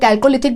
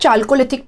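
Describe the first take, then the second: First: The word begins with a 'k' sound. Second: The word begins with a 'ch' sound. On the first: "कुछ लोग इसको कैल्कोलिथिक भी बोलते हैं" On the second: "यहां पे हमने लिखा हुआ है चाल्कोलिथिक पीरियड"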